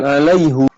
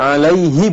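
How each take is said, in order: First: The word ends with an 'u' vowel. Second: The word ends with an 'i' vowel. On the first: The speaker calls it wrong. "bukan alaihu" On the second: The speaker calls it right. "jadi alaihi"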